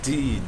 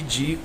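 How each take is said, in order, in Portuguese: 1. Começa com um "d" forte e a vogal e. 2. Começa com um som de "dj" suave e a vogal i. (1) "eu falo de, de forte, norte, triste" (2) "Não falo ti, di como as pessoas daqui"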